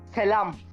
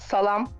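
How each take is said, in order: First: The first vowel is an 'e' sound. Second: The first vowel is an open 'a' sound. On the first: The speaker calls it right. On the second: The speaker calls it wrong. "Not salam"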